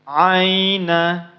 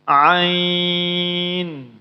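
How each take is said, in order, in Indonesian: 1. Kata ini berakhir dengan bunyi vokal. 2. Kata ini berakhir dengan bunyi konsonan. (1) "apabila dibaca menyambung" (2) "maka kalau berhenti seperti itu"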